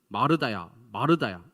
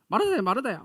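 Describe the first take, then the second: First: It is said in a condemning, judging tone. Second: It is said in a nagging tone.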